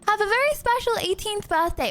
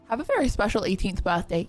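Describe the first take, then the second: First: It is said in her normal voice. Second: It is said in a put-on deep man's voice.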